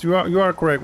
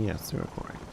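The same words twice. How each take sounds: First: Said in the usual way. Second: Soft unvoiced whisper. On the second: Real, not acted. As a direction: breathe it as a whisper. Repeats the agreement in whisper.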